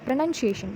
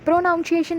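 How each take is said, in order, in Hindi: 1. दूसरा शब्दांश 'nun' जैसा सुनाई देता है। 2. दूसरा शब्दांश 'nounce' जैसा सुनाई देता है। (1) "प्रोनाउंसिएशन बोलेंगे" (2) "प्रोनाउंसिएशन नहीं बोलेंगे हम इसे"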